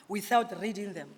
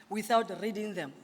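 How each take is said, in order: Both takes have the same delivery.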